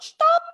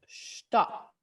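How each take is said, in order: First: It is screamed out loudly. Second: It is said at normal, quiet volume.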